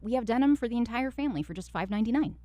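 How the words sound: The voice is light, warm and chatty. "more like friendly and conversational"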